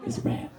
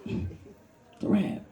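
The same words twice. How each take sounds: First: Said in the usual way. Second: Soft, very slow "It's a wrap"; whispered. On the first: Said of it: "deadpan aside". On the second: Acted. Comic resigning, whispered wrap. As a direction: breathe out "It's a wrap" slowly. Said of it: "deadpan whisper repeat".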